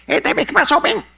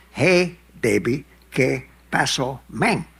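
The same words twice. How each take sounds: First: High, loud, fast Cuban greeting; Cuban Spanish greeting. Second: Put-on "Hey, baby, ¿qué pasó, men?" stretched slow, higher. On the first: Retold or imitated. Latin guys greeting him in Cuban Spanish. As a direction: toss it off like a Havana street greeting. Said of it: "they said". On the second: Shown as a demonstration. Showing what the Cuban greeting sounds like said slowly. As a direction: drag out each word of "¿qué pasó". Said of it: "at that speed".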